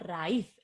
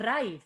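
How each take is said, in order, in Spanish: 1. El acento cae en la vocal i. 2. El acento cae en la vocal a. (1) "decimos raíz" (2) "No decimos raíz"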